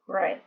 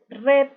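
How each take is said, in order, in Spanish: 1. La vocal es más redondeada, con la lengua más atrás. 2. La vocal es una E anterior, al estilo español. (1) "sino red. Tenemos que echar un poquito la lengua más para atrás" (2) "no es red"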